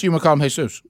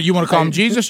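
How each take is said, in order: First: Jesus said as hay-SOOS; Jesus with a Spanish H sound; Spanish pronunciation. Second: Jesus said as JEE-zus; Jesus with an English J sound; English pronunciation. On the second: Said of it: "So you, you wanna". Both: Shown as a demonstration.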